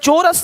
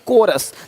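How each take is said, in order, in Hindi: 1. शब्द ch ध्वनि से शुरू होता है। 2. शब्द k ध्वनि से शुरू होता है। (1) "चोरस नहीं"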